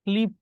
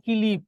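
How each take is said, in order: First: Said in the usual way. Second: "কিলিপ" as ki-lip, an i splitting k and l; vowel inserted after k. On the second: Shown as a demonstration. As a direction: break the kl cluster with an i in "কিলিপ". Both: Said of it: "এটা কোন স্বরাগমের উদাহরণ".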